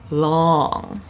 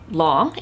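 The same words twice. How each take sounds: First: The vowel of the word is stretched out. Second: The word is said at normal length. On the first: "it's long" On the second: "it's not just long"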